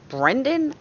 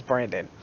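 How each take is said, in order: First: "Brendan" with an E in the first syllable; the supposedly correct "Brendan", E not A; corrected pronunciation. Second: "Brandon" in a New York accent, A in the first syllable; New York "Brandon", with "bran" for "bren". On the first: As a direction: say "Brendan" carefully, with "bren" as in "when". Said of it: "how I guess you're supposed to say it". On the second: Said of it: "My New York accent says Brandon". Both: Shown as a demonstration.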